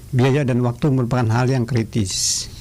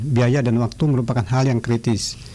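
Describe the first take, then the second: No difference in how they are said.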